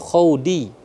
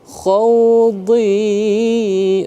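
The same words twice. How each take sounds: First: The d sound is light and thin. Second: The d sound is heavy and thick. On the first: The speaker calls it wrong. "bukan khawdi" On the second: The speaker calls it right. "tebal dia"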